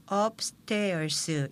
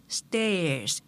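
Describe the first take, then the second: First: Upstairs broken into five Korean syllables, eop-seu-te-eo-seu; Konglish syllables. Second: Upstairs as two clean English beats, up and stairs; two-syllable pronunciation. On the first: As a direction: add vowels to the consonants in upstairs. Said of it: "다섯 음절로 한글의 콩글리시로". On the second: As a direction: say upstairs without added vowels, first beat stressed. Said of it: "이음절로 발음하면서". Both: Shown as a demonstration.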